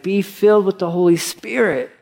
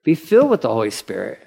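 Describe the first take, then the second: First: Be filled with the Holy Spirit, FILLED stressed higher and falling; emphatic. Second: "filled" said quickly with a lift at the end; fast, rising repeat of "filled". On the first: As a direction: lean into "filled" like a preacher. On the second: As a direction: rattle off "Be filled with the Holy Spirit" lightly. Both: Shown as a demonstration. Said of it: "today's language is like".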